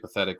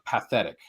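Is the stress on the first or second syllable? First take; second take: second; first. First: The stress is on the second syllable. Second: The stress is on the first syllable. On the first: It means pitiful. "we have the modern day connotation there" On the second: It means appealing to emotion. "I stress that word path in that"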